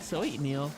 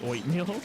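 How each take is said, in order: First: The word is said in the ordinary way. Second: The word is said with a meow-like sound. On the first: "I know it's like oatmeal" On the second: "I say it like that on purpose"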